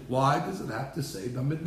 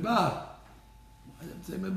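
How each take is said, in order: First: Said in the usual way. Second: Slow, softer, leaning on "Bamidbar"; slow emphatic question. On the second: Shown as a demonstration. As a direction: drag out "Why does it say Bamidbar" as a pointed question. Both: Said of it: "Back to my famous question".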